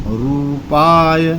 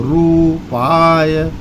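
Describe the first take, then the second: Both takes have the same delivery.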